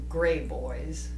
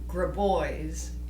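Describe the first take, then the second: First: The name begins with a sound like 'gray'. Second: The name begins with a sound like 'grab'. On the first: This is the changed, everyday pronunciation. "they've changed it to" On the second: This is the family's original pronunciation. "the proper pronunciation"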